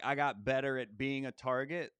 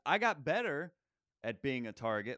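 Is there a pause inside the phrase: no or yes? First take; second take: no; yes. First: The phrase is said straight through without pausing. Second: There is a pause before the end of the phrase. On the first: It comes across as a plain phrase. The speaker calls it wrong. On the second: It works as a setup and punchline. The speaker calls it right.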